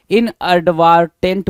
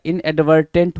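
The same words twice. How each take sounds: First: इनएडवर्टेंट with a broad "vaar" in the middle; misspelling read out. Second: Said in the usual way. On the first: Shown as a demonstration. Teacher reading the wrong spelling, इनएडवर्टेंट with long "vaar". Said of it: "इनएडवर्टेंट बोल रहा है". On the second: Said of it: "इनएडवर्टेंट होगा".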